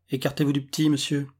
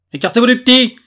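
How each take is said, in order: First: Said in the usual way. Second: Loud, high-pitched police command; shouted order. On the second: A narrator's reading. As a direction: bellow the order at higher pitch. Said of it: "répéta inutilement le collègue". (ordre crié, fort et aigu)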